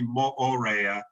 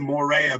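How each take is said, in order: First: Each vowel is pronounced as a separate sound. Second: The double vowel is merged into one sound. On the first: This is how locals pronounce it. The speaker calls it right. "but it's actually Moorea" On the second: This is the common outsider pronunciation. The speaker calls it wrong. "we we say Morea"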